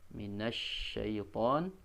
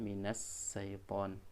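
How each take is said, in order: First: The word begins with an sh sound. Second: The word begins with a plain s sound. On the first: The speaker calls it right. "padahal minas syaiton itu pakai huruf shin" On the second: The speaker calls it wrong. "maka yang keluar bukan huruf shin"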